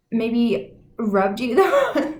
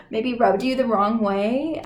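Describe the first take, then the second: First: Words broken by a laugh, slowed; amused, cracking up mid-sentence; laughing through it. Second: Said in the usual way. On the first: Real, not acted. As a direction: giggle as you say it. Laughs mid-phrase, then repeats.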